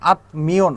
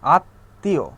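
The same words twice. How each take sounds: First: The m sound is pronounced after the t. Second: The t is doubled and the m is silent. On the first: The speaker calls it wrong. "আত্মীয় না" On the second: The speaker calls it right. "দ্বিত্ব হবে"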